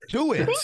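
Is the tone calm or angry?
angry. It is said in an angry, aggressive tone.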